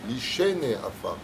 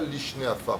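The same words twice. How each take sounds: First: An 'e' vowel is sounded after the 'sh'. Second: The 'sh' runs straight into the 'n'. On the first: It means those who sleep in the dust. The speaker calls it right. "c'est un tséré" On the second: It means the two dusts. The speaker calls it wrong. "pas Lishne Afar, pas les deux poussières"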